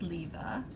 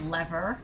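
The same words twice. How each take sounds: First: It is said in a British accent. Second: It is said in an American accent.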